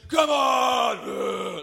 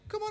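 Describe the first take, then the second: First: The voice sounds hard and menacing. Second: The voice sounds light and unthreatening. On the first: The speaker is a fearsome warrior. "he's just got like the most hard voice in the world" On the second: The speaker is a boy who provokes others, then runs off. "He's not like"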